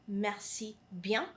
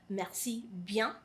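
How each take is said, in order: Both takes have the same delivery.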